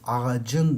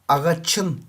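First: The consonant before the ending is a voiced c. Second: The consonant before the ending is a voiceless ç. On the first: The speaker calls it right. "Ağacın dersin" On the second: The speaker calls it wrong. "Ağaçın diyemezsin ki"

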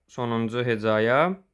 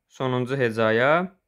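No difference in how they are said.

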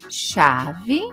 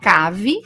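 First: The word begins with a sh sound. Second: The word begins with a k sound. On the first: The speaker calls it right. "quando o H está depois do C, do L e do N, ele tem som" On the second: The speaker calls it wrong. "Sem o som do H, as palavras ficariam cave"

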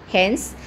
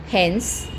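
No difference in how they are said.

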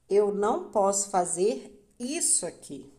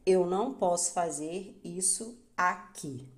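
First: The stress is on the word isso. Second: The stress is on the word aqui. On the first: It is a statement about behavior. "Quando isso é enfatizado" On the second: It is a statement about environment. "Quando aqui é enfatizado"

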